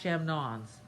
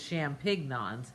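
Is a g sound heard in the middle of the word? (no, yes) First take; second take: no; yes. First: No g sound is heard in the middle. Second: A g sound is heard in the middle. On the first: The speaker calls it right. "I don't say the G" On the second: The speaker calls it wrong. "I didn't think it was champignons. That just didn't sound right"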